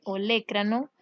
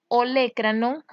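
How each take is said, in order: First: Olecranon with the stress on the E, ole-CRA-non style. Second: Said in the usual way. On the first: Shown as a demonstration. Teacher showing students where the stress falls, stress on the E. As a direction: lean on the E in olecranon. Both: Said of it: "con acento en la E".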